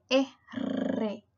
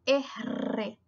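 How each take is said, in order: First: The r is a strong rolled sound. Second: The r is a strong rolled sound.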